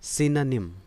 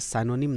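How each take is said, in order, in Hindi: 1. पहले अक्षर में छोटा 'i' स्वर है। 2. पहले अक्षर में 'ai' स्वर है। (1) "इसका प्रोनाउंसिएशन है सिनोनिम" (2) "आप इसे साइनोनिम ना पढ़ें"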